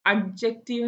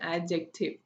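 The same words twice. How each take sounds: First: "അഡ്ജക്റ്റീവ്" with a separate hard d before the j; sounded D. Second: "ആഡ്ജക്റ്റീവ്" as a-jective, d melted into the j; silent D. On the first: Teacher asking if we say this, D sounded in "അഡ്ജക്റ്റീവ്". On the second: Teacher correcting the wrong form, silent D in "ആഡ്ജക്റ്റീവ്". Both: Shown as a demonstration. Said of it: "എന്നാണോ പറയുന്നത്".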